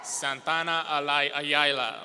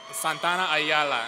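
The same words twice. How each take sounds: First: False start on "Alay-", then "Ayala"; stumbled name. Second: Said in the usual way. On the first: Real, not acted. Announcer misreading a graduate's name, stumbling on "Ayala". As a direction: trip over "Ayala", breaking off at "Alay-" and restarting. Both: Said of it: "oh, sorry".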